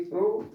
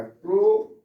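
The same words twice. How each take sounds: First: Said in the usual way. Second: प्रो said alone, loud and high; syllable demo. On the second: Shown as a demonstration. Teacher sounding out syllable प्रो for class. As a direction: break off the first syllable प्रो. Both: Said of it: "इसको हम लोग पढ़ेंगे प्रोनंसिएशन".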